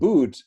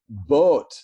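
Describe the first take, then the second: First: The vowel is a long 'oo' sound. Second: The vowel is an 'oh' sound. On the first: This is the modern pronunciation. "the word boot" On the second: This is an older pronunciation from before the vowel shift. "used to be boat"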